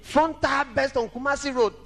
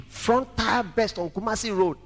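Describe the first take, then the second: First: Raised emphatic retelling; higher, emphatic repeat. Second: Said in the usual way. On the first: Shown as a demonstration. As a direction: lift it higher the second time. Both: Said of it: "repeats the line".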